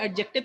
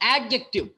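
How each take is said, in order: First: The stress is not on the first syllable. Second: The stress is on the first syllable. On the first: The speaker calls it wrong. "इसको adjective के बजाय" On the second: The speaker calls it right. "एड को आपको emphasise करना, थोड़ा ताकत लगा के बोलना है"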